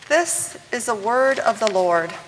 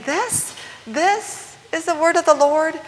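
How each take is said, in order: First: It is said as a statement, falling. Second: It is said as a question, rising.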